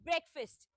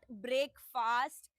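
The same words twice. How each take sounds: First: The second syllable sounds like 'first'. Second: The second syllable sounds like 'fast'. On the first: The speaker calls it right. "The right pronunciation is breakfast. ... like F I R S T wala first" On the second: The speaker calls it wrong. "It's not breakfast. ... rather than the fast"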